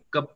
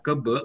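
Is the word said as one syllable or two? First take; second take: one; two. First: It has one syllable, ending in a consonant. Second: It has two syllables, ending in a vowel. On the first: The speaker calls it right. "tapi kep aja" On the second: The speaker calls it wrong. "nggak dibaca ke B"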